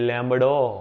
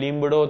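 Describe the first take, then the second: First: The first vowel is a mid 'e'. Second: The first vowel is a close 'ee'. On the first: "આ લોકો કે લેમડો" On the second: "આપણે કહીએ લીમડો"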